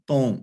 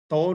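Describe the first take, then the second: First: ਤੌ said carefully and with emphasis, the right way; correct pronunciation. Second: ਤੌ read the wrong way, as a plain short syllable; wrong pronunciation. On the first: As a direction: stress ਤੌ firmly as the correct reading. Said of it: "ਤੌ ਨਹੀਂ ਪੜ੍ਹਨਾ, ਤੌ". (ਤੌ ਦਾ ਸਹੀ ਉਚਾਰਨ, ਜ਼ੋਰ ਨਾਲ) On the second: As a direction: say ਤੌ carelessly, the way not to read it. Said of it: "ਤੌ ਨਹੀਂ ਪੜ੍ਹਨਾ". (ਤੌ ਦਾ ਗਲਤ ਉਚਾਰਨ) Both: Shown as a demonstration.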